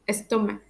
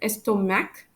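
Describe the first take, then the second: First: The final C sound is silent. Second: The final C sound is pronounced. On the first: The speaker calls it right. "We pronounce it as pour, stomach" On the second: The speaker calls it wrong. "We don't pronounce it as pores and stomach"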